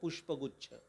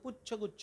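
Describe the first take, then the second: First: The first part is said with 'shp' sounds. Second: The first part is said with a 'chh' sound. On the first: A bunch of flowers. The speaker calls it right. "साधा शब्द आहे, जोड शब्द" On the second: A bunch of tails. The speaker calls it wrong. "पुष्पगुच्छ हा उच्चारता येत नाही, तो पुच्छगुच्छ म्हणतो"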